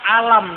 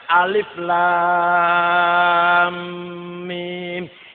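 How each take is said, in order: First: It is read as one short word. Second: Each letter name is said separately and lengthened. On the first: The speaker calls it wrong. "nek ona orang ono ilmu tajwid, alif lam mim dibaca alam" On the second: The speaker calls it right. "kata ilmu tajwid bacanya alif lam mim"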